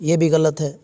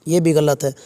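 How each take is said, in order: The two takes are said the same way.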